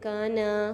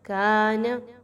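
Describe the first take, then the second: First: The final 'na' is drawn out long. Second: The first vowel is long, the final 'na' short. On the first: The speaker calls it wrong. "इसको लोग अक्सर क्या पढ़ देते हैं" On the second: The speaker calls it right. "नून की मक़दार को कम रखना है और का को एक से दो अलिफ़ के बराबर।"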